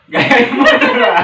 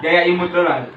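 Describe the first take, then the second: First: High, loud cute laughing voice. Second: Said in the usual way. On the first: Shown as a demonstration. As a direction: squeal it in a cute style.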